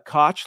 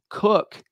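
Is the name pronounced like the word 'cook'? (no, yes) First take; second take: no; yes. First: The name does not sound like 'cook'. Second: The name sounds like the word 'cook'. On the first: This is the common pronunciation of the spelling. The speaker calls it wrong. "you would think like Koch, like a lot of famous people have had that name" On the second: This is how the family says the name. The speaker calls it right. "that's how his family pronounces their name"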